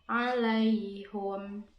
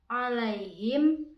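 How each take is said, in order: First: The vowel after h is u. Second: The vowel after h is i.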